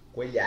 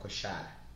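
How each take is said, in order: First: The middle consonant sounds like 'ly'. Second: The middle consonant sounds like 'sh'. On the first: This is how Colombians say the name. "Na verdade é coelhar" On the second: This is how Argentines and Uruguayans say the name. "Mas os portenhos, argentinos, uruguaios, vão coxar"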